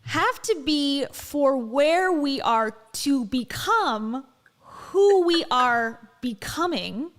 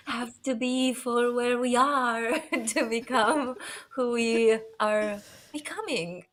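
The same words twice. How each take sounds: First: Very slow, louder, drawn-out guru cadence; hammed-up motivational speaker, slow and weighty; Dave Hollis impression. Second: Lightly voiced guru cadence, laughing midway; mock-profound motivational line; a touch of a self-help speaker; Dave Hollis impression. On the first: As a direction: stretch every word like a profound sermon. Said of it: "here's mine". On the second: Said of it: "That's my best impression".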